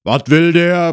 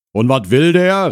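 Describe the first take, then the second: First: Loud, raised grumble from indoors; grumbled. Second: Loud, higher shouted question; called out. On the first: Husband inside asks about the visitor, grumbling loudly. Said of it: "brummte der Mann von drinnen". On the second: Husband calls from inside about the visitor, shouting. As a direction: holler the question from indoors. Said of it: "rief die Stimme". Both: Acted.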